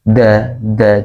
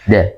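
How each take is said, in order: First: The tongue pokes out, so it sounds z-like. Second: The tongue stays inside, giving a clean d. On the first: The speaker calls it wrong. "kalau ada pengucapan huruf dal lidahnya agak keluar, da da jadinya apa namanya mirip ke, ke huruf za" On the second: The speaker calls it right. "Kalau da di dalam, di dalam"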